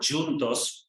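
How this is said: It is pronounced the Portuguese way. "juntos also means together in Portuguese, just different pronunciation"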